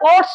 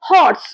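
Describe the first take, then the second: First: The word begins with a vowel, h silent. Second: The word begins with a pronounced h sound. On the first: The speaker calls it wrong. "তখন কিন্তু আমরা অর্স বলছি না" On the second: The speaker calls it right. "এইচটা কিন্তু হয়ের sound করছে"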